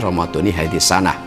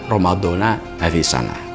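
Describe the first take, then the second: First: The first word ends in an 'i' vowel. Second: The first word ends in an 'a' vowel. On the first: The speaker calls it right. "jadi ramadhani hadis sanah" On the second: The speaker calls it wrong. "bukan ramadhana hadis sanah"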